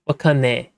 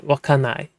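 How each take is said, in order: First: Wakane with the ending clipped to "ne"; Hokkaido-style wakane; dialect wakane. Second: Wakanai with the full long -nai ending; correct wakanai. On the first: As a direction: say wakane, dropping the long "ai" for a short "e". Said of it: "But he'll say wakane". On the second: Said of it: "you're supposed to say wakanai". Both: Shown as a demonstration.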